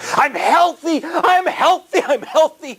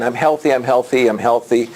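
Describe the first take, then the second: First: It is said with energetic breathing and intonation. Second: It is said in a flat, plain way.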